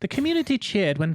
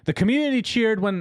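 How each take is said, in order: First: It is said in a British accent. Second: It is said in the speaker's usual accent.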